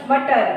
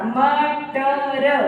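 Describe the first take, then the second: First: Said in the usual way. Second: मटर very slowly, each letter held; sounded out. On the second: Shown as a demonstration. Teacher demonstrating pronunciation of मटर, slowly sounded out. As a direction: stretch म, ट, र one by one. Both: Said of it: "एक एक शब्द से उच्चारण करके पढ़ना".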